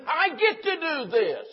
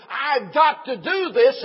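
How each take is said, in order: First: Slow, high, exultant emphasis on "get"; stress on GET. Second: GOT held long and punched loud; slow, loud, high, leaning hard on "got"; stress on GOT. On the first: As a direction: GET lifted very high and drawn out. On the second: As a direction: hit the word "got" as a burdensome duty. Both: Shown as a demonstration. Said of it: "Do you see the difference?".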